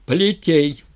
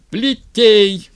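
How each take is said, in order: First: Raised, loud order; commanding. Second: High, full-force yelled command; yelling. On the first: Styr as tsar ordering the lash, commanding. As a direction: give a firm, high-pitched command. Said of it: "велел Стырь". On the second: Styr as tsar furiously ordering the lash, yelling. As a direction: bellow the order at the top of your voice. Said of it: "тоже заорал Стырь". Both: A narrator's reading.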